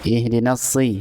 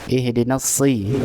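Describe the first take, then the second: No difference in how they are said.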